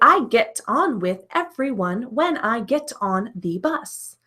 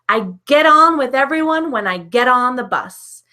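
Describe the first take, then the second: First: Each word is said separately, without linking. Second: The words run together, linked smoothly. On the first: The speaker calls it wrong. "I don't say, ... Notice I do not say all of these words individually" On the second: The speaker calls it right. "I link the words together"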